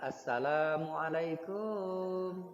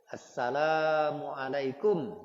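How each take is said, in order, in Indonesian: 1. Suku kata terakhir dipanjangkan dengan irama. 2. Suku kata terakhir pendek, tanpa irama.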